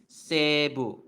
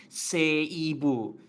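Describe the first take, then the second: First: "Seibu" as seh-bu, one long E and no separate I; slow "Seibu" in two joined beats, long first vowel; stretched E. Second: "Seibu" slowly as se-i-bu, the I sounded on its own; drawn-out "Seibu" with E and I kept apart; over-separated pronunciation. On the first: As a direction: stretch the E in "Seibu", then drop to bu. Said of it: "stretch the E sound a little bit". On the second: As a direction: split "Seibu" into three distinct beats. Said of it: "you don't really pronounce". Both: Shown as a demonstration.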